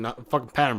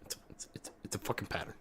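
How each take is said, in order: First: Louder, punching the word pattern; sarcastic loud jab. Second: Soft whispered aside, almost no voice; sarcastic whisper. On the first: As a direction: hammer home the sarcasm. Sarcastic rant about game pattern. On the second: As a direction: lean in and whisper the punchline. Sarcastic whispered payoff after loud line. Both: Acted.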